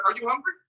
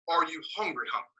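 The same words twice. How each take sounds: First: Said in the usual way. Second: "hungry, hungry" said lower, as one intensified word; doubled word for emphasis. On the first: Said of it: "when you say a word twice". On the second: Acted. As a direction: double up "hungry, hungry" to mean really hungry, dropping lower. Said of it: "when you say a word twice, it makes a different meaning".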